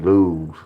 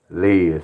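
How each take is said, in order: First: The vowel is an 'oo' sound. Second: The vowel is an 'ih' sound. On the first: The speaker calls it right. "L U Z" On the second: The speaker calls it wrong. "I was saying Liz, but it was Luz"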